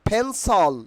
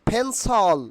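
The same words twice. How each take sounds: No difference in how they are said.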